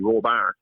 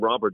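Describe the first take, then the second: First: The stress is on the second syllable. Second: The stress is on the first syllable. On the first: This is how Yola speakers would say it. "They put the stress on the second syllable instead of the first syllable" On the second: This is the usual English way of saying it. "They wouldn't call them robber"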